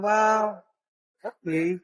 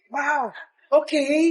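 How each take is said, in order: First: It sounds let down and disappointed. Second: It sounds warm and supportive.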